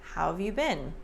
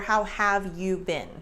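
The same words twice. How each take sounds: First: Have is contracted, but you stays full. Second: Every word is said fully and separately. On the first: "we've got the contraction, but we still have the extra effort with you" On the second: "if you read it"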